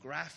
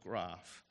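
First: Graph is said in a Victorian accent. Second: Graph is said in an Adelaide accent. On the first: This is how a Victorian says it. "graph instead of" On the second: This is how a local Adelaide speaker says it. "instead of graph"

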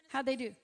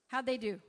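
No difference in how they are said.

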